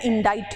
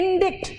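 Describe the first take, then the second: First: The i sounds like 'eye' with no k. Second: The i is short and a k is heard. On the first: The speaker calls it right. "Pronunciation इसका इंडाइट है" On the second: The speaker calls it wrong. "हम लोग कहते हैं इंडिक्ट"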